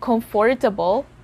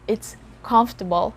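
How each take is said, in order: First: Every syllable is pronounced, including the middle one. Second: The middle syllable is dropped from the word. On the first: The speaker calls it wrong. "So it's not comfortable" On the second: The speaker calls it right. "The letters O and R. ... it's comfortable"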